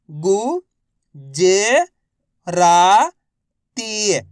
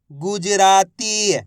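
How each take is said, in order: First: गुजराती drawn out one syllable at a time. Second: Said in the usual way. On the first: Shown as a demonstration. Teacher sounding out गुजराती for learners. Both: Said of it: "तो मिलके बन जाएगा".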